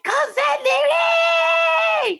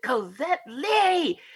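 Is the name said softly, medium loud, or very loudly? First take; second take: very loudly; medium loud. First: The name is said at a very loud volume. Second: The name is said at a medium, louder volume.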